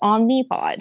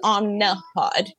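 First: The middle vowel sounds like an i. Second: The middle vowel sounds like an a. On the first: "It's spelled with an I. So it's Omnipod" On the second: "She says Omnipod, like with an A"

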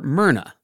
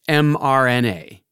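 First: It is said as a single two-syllable name. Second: It is said as four separate letters. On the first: The speaker calls it wrong. "scientists don't actually call her Myrna" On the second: The speaker calls it right. "They pronounce it mRNA"

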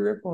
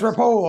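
First: The name sounds like the word ripple. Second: The name does not sound like ripple. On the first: This is how most people say the name. The speaker calls it wrong. "ripple is how most people pronounce it" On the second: This is the family's own way of saying the name. The speaker calls it right. "No, it's Ripoll"

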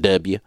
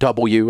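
First: The letter is clipped to 'dubya'. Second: The letter is said fully as 'double-u'. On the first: This is the native Southern pronunciation. The speaker calls it wrong. "the classic George W. Bush... that's a classic Southern thing" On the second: This is the trained, standard pronunciation. The speaker calls it right. "some W instead of"

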